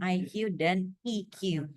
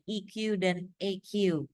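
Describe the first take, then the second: First: The letters are read with English letter names. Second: The letters are read with Indonesian letter names. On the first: "Tapi kalau bahasa Inggrisnya" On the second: "Kalau bahasa Indonesianya"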